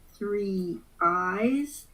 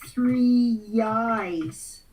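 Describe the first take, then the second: First: The two words are said separately, without linking. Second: A y sound links the two words together. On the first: The speaker calls it wrong. "Nobody says three eyes" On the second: The speaker calls it right. "It sounds like three yis"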